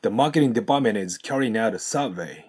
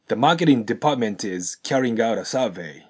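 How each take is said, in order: First: "department is carrying out" as depamenez carryinout; linked, sounds dropped. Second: "department" with its T, "carrying" with its G; slower, sound the T in "department" and G in "carrying"; T and G pronounced. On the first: Teacher says it through, "department is carrying out" linked without T and G. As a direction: run it together, no T in "department", no G in "carrying". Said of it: "通して発音すると". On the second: Teacher shows the full pattern, "department" and "carrying" with T and G. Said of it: "ちゃんとデパートメントのTを発音してあげて". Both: Shown as a demonstration.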